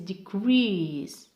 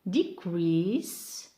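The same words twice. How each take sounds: First: The stress is on the second syllable. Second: The stress is on the first syllable. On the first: It is used as a verb. "and the verb is decrease" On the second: It is used as a noun. "So here we have decrease"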